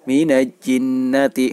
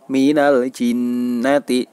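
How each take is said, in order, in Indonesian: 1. Huruf l sebelum jinnati dihilangkan. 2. Huruf l sebelum jinnati diucapkan dengan jelas. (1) "Artinya tidak boleh dibaca mina jinnati" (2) "lafal al atau huruf alnya itu dibaca dengan jelas"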